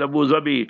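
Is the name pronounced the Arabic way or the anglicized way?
Arabic. The name is said with Arabic pronunciation. The speaker calls it right. "In Arabic, it's Abu Dhabi"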